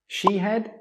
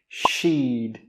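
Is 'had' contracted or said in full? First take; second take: full; contracted. First: The word had is said in full. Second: Had is reduced to a short d sound. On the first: The speaker calls it wrong. "Most native speakers don't say I had" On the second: The speaker calls it right. "They will say I'd"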